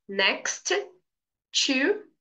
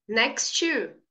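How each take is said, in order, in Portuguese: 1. Os dois sons de T são pronunciados separadamente. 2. Os dois sons de T se fundem em um só. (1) "em vez de você falar assim, ó" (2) "diga next to ... você vai pronunciar só uma letra"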